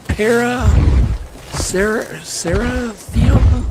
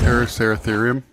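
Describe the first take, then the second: First: Halting, syllable by syllable "para-, cera-, cerathium?" ending on a slow high rising guess; unsure groping at "cerathium?", slow and rising; stumbling mispronunciation. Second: "Paraceratherium?" said smoothly in one go; confident, fluent "Paraceratherium?" with a light rise; correct pronunciation. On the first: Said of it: "Thanks for making me look bad". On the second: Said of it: "really good job". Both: Real, not acted.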